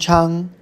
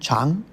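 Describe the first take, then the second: First: The syllable is said with the first tone. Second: The syllable is said with the second tone. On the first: "First tone" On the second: "second tone"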